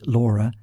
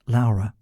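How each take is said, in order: First: The name is said with English pronunciation. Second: The name is said with Italian pronunciation. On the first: "it tends to be Laura in uh, English" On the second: "not Laura, but Laura"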